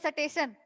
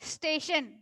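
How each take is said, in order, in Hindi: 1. s और t के बीच एक स्वर डाला जाता है। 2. s और t के बीच कोई स्वर नहीं होता, दोनों सीधे जुड़े होते हैं। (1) "बूढ़े बुजुर्ग बोलते हैं सटेशन" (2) "लेकिन क्या होता है"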